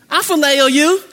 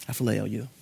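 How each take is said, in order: First: Higher, louder confident reply; brash Peter. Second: Much lower, soft humble answer; a broken Peter admitting his limits; humbled Peter. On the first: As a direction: Peter brushing it off, sure of himself. Peter's first boastful answer. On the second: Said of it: "Jesus meets Peter exactly where he's at". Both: Acted.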